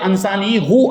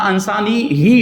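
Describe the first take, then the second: First: The word ends with a 'u' sound. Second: The word ends with an 'i' sound. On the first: This is how the text is traditionally recited. The speaker calls it right. "उसकी जगह पे अंसानी हु आया है" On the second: This is what the grammar rules would expect. The speaker calls it wrong. "होना चाहिए था"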